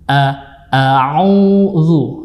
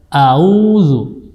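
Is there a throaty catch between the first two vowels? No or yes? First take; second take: yes; no. First: A throaty ain sound separates the first two vowels. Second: The first two vowels run together without a throat sound. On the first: The speaker calls it right. "yang benar insyaallah a'udzu" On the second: The speaker calls it wrong. "banyak yang memudahkan membaca auzu"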